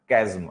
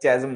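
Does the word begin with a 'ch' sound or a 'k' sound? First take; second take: k; ch. First: The word begins with a 'k' sound. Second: The word begins with a 'ch' sound. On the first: The speaker calls it right. "इसको कैज्म पढ़ते हैं" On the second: The speaker calls it wrong. "चैज्म मत पढ़ना"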